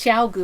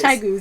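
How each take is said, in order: First: The first syllable sounds like 'chow'. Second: The first syllable sounds like 'chai'. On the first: "Even though it's chow goo, I think" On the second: "that's what we call chai goos"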